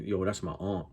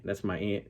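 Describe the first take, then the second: First: "aunt" as "ahnt", broad back vowel; New York broad aunt. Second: "aunt" with a short A, exactly like "ant". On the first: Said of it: "I've heard some people from New York". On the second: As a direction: say "aunt" just like the insect. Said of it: "some people from New York say aunt". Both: Retold or imitated.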